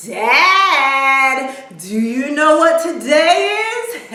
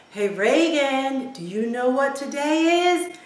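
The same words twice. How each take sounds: First: Loud, high singsong call to Dad; excited daughter. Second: Dad's drawn-out, higher call. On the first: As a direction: imitate a daughter bursting with news. Excited daughter greets dad, acted. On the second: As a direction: imitate a dad calling to his daughter. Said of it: "he yells out to her". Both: Retold or imitated.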